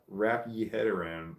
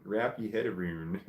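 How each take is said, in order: First: Said in the usual way. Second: AROUND said "aroon", Scottish style; Scottish accent. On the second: Shown as a demonstration. Reading a chatter's hard accent aloud, attempted Scottish accent. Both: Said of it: "This is a hard accent".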